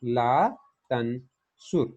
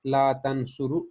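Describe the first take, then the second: First: "तनसुर" ending silent on the र; correct jussive form. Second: "तनसुरु" with a final "उ" after the र; wrong form. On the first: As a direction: stop on a bare r in "तनसुर". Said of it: "बल्कि हम क्या कहेंगे?". ("तनसुर" का आखिरी "र" साकिन बोलें) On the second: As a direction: end "ला तनसुरु" on a short u. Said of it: "नहीं कहेंगे". ("तनसुरु" को आखिर में "उ" लगाकर बोलें) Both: Shown as a demonstration.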